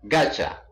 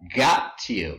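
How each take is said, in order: First: The two words are blended into one word. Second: The two words are said separately and fully. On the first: "becomes gacha" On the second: "got you becomes gacha"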